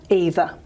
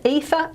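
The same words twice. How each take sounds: First: "either" with a buzzing TH in the middle; voiced TH. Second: "ether" with a breath-only TH in the middle; voiceless TH. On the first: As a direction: say "either" as EE-ther, TH voiced throughout. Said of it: "as in either or". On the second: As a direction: say "ether" with unvoiced TH, set apart for contrast. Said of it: "a contrast between a word like ether". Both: Shown as a demonstration.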